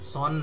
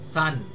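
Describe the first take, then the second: First: The vowel is a rounded 'aw' sound. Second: The vowel is an open 'ah' sound. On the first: The speaker calls it wrong. "সন নয়" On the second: The speaker calls it right. "সান সন নয়"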